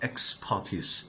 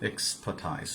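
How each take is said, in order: First: The last syllable sounds like 'teece'. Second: The last syllable sounds like 'tize'. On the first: The speaker calls it right. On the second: The speaker calls it wrong.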